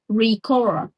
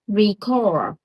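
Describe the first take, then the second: The two takes are said the same way.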